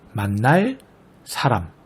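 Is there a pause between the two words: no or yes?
yes. Said with a clear break between words. "명확하게 끊어 읽게 될 경우"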